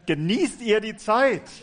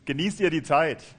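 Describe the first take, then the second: First: It is said with lively enthusiasm. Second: It is said in a plain, flat tone.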